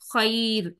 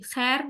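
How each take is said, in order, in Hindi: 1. यह स्वर 'a' से 'i' की ओर हल्के से फिसलता है। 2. यह स्वर एक सपाट 'ae' ध्वनि है। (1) "हम इसको खई बोलेंगे" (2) "खैर वर्ड नहीं है ये"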